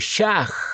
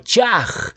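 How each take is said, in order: First: The word begins with a sh sound. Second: The word begins with a ch sound. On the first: "muchos lo pronuncian como Shach" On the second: "la forma Chaj con fonética Che"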